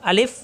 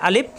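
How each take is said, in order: First: আলিফ with a final f; f-ending pronunciation. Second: আলিফ with a final p, "alip"; p-ending mispronunciation. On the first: Teacher explains lip position, আলিফ ending in f. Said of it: "ফ দিয়ে উচ্চারণ হবে". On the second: Teacher contrasts closed lips, আলিফ ending in p. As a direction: let both lips meet to end আলিফ in p. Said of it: "দুই ঠোঁট মিলে গেলে আলিফ প দিয়ে উচ্চারণ হবে". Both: Shown as a demonstration.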